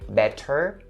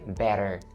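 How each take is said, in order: First: The middle consonant is a clear T sound. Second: The middle consonant is a soft flap D. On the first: The speaker calls it wrong. "I don't say better" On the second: The speaker calls it right. "I turned the T in the middle into a flap D sound"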